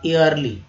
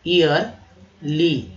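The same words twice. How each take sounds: First: Said in the usual way. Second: ईयरली drawn out very slowly; slow demo. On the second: Shown as a demonstration. Teacher modelling ईयरली slowly for learners. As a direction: stretch ईयरली carefully syllable by syllable. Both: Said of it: "वार्षिक".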